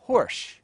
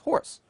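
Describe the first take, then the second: First: The word ends with an sh sound. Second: The word ends with an s sound. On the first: "it is pronounced horsh, under the influence of shoe" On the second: "spoken in isolation, is pronounced horse"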